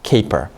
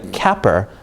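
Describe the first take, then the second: First: The first vowel is a long A sound. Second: The first vowel is a short A sound. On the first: The speaker calls it right. "pronounced with a long A sound" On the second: The speaker calls it wrong. "If it made a short vowel sound"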